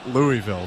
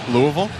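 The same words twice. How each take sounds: First: It is said with an outsider's pronunciation. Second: It is said with the local pronunciation. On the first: The speaker is not from the city. The speaker calls it wrong. "They look at you weird in Louisville if you say Louisville" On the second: The speaker is from the city. The speaker calls it right. "I like that you say it correctly"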